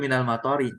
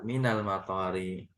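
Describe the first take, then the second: First: The vowel after the t is cut short. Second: The vowel after the t is held long. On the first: The house is near the rain. The speaker calls it wrong. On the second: The house is near the airport. The speaker calls it right.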